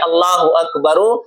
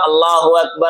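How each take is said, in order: First: The last word ends with a final u vowel. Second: The last word ends with a final a vowel. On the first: "अल्लाहु अकबरु नहीं पढ़ेंगे" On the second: "मिला के पढ़ना चाह रहा है तो"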